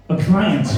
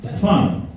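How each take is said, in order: First: Mock posh accent, higher on client. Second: Said in the usual way. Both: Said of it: "You're too posh for me".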